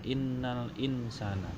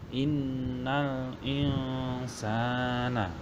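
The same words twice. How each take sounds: First: The n sound is pronounced clearly. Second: The n sound is hidden and nasalized. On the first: "itu tulisannya" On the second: "tapi dibaca"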